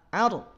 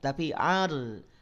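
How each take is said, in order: First: The r sound is cut off abruptly. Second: The r sound flows on only slightly. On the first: The speaker calls it wrong. "bacanya terputus biasanya membaca dengan dihentak" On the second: The speaker calls it right. "alirkan sedikit"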